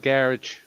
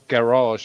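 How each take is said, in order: First: It is said in a British way. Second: It is said in an American way. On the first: This is how the speaker says it at home. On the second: This is how the listeners abroad say it.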